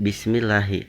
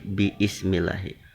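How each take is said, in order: First: The syllables merge into one word, bis-mil-la-hi. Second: The vowel after 'bi' is kept as a syllable. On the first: This is the later, shortened form. "Bukan bismillahi" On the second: This is the original, older form. "Zaman dahulunya itu bi ismi... tapi bi ismillahi"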